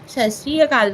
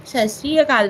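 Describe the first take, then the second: First: The phrase is said as 'Sat Sri Akal'. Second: The phrase is said as 'Sat Sri Akal'.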